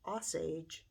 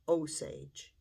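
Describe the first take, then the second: First: The first vowel is a soft O. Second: The first vowel matches the O in Oklahoma. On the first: The speaker calls it wrong. "I was pronouncing it as Osage ... it seemed a little bit more like it was towards a soft O" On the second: The speaker calls it right. "it should be Osage ... Oklahoma Osage Tribe"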